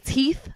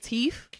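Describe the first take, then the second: First: The word ends with a th sound. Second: The word ends with an f sound. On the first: "I never say teeth" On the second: "I say teeth. ... it's always an F"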